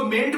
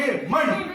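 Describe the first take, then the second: First: मेंट with a clear E, as in "men"; wrong E vowel. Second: मंट with "uh" for the E; schwa in MENT. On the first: Teacher tests pupils with wrong form, मेंट with E. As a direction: say मेंट with an open E. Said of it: "क्या आप इसको मेंट बोलोगे". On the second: Answer to teacher's question, मंट with short "uh". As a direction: say मंट like "munt". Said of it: "क्या बोलोगे?". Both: Shown as a demonstration.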